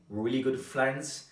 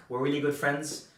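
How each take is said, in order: Both takes have the same delivery.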